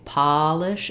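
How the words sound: The first vowel is open and unrounded. "when we say polish in American English"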